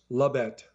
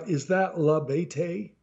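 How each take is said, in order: First: La Bete said as two syllables, luh BET; right pronunciation. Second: La Bete said as three syllables, la BAY-tay; wrong pronunciation. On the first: Shown as a demonstration. Narrator correcting the clerk, luh bet in two syllables. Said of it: "It's two syllables". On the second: A narrator's reading. Clerk misreading the narrator's name, la bay-tay.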